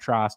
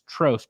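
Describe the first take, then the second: First: The vowel does not sound like 'toast'. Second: The vowel sounds like the one in 'toast'. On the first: The speaker calls it wrong. "not Trost" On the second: The speaker calls it right. "It's Trost like toast"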